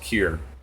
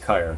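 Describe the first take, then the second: First: The name does not rhyme with fire. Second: The name rhymes with the word fire. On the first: This is how the band members always said it. The speaker calls it wrong. "we always called ourselves Kier" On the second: This is probably the correct reading of the spelling. The speaker calls it right. "basically looks like fire, but with a K, so maybe it's Kire"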